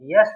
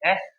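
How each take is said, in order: First: The letter name starts with a y sound. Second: The letter name starts with a plain vowel. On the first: The speaker calls it wrong. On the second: The speaker calls it right.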